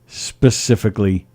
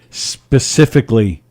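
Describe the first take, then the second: No difference in how they are said.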